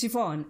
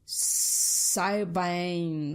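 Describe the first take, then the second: First: The name is pronounced the Irish way. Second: The name is pronounced the way it is spelled. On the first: The speaker calls it right. "this Irish friend of mine taught, taught me how to pronounce it" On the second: The speaker calls it wrong. "otherwise I would say Siobhan or something"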